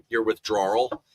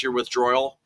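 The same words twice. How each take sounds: First: Said in the usual way. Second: Withdrawal said as "withdroyal", with an oy in it; slip on withdrawal. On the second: Real, not acted. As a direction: stumble on withdrawal, turning draw into droy. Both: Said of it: "I should say it right".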